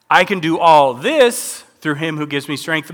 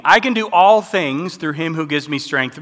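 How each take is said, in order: First: "this" given the main weight; stress on this. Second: "all" given the main weight; stress on all. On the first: Contrasting the two verse versions for listeners, weight on "this". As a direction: lean on "this", the thing at hand. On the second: Contrasting the two verse versions for listeners, weight on "all". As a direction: lean on "all" for anything at all. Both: Shown as a demonstration. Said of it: "Did you catch that meaning?".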